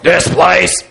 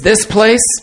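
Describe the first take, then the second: First: It is said in a deep, gravelly voice. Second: It is said in a plain voice.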